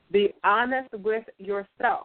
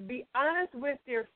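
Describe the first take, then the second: First: Slow, measured, word by word; deliberate, evenly spaced delivery; slow and calm. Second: Said in the usual way. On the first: Shown as a demonstration. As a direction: say it slowly and calmly, letting each word land. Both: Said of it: "I'm gonna say this slow and calmly".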